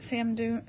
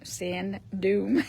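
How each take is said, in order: First: "sand" slurred towards "sam" before "dune"; tongue-tripped slip. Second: "sand dune" separated into two clear words; re-say "sand dune" carefully, a clear n in "sand"; careful correction. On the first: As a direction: stumble over "sand dune", blurring "sand" into "sam". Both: Real, not acted. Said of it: "Can't say that ten times fast".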